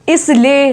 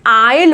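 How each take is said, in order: First: An s sound is pronounced before the l. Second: No s sound is pronounced before the l. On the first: The speaker calls it wrong. "इसको आइसले या इसले नहीं बोलेंगे" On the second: The speaker calls it right. "इसको बोलेंगे आइल"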